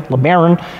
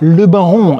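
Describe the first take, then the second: First: The name is pronounced in an American way. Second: The name is pronounced in a French-sounding way. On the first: The name refers to a coach builder. The speaker calls it right. "as it is pronounced the correct way" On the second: The name suggests old-world continental Europe. The speaker calls it wrong. "it sounds French"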